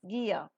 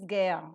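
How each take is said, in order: First: The word is said with a standard pronunciation. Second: The word is said with an Indian pronunciation.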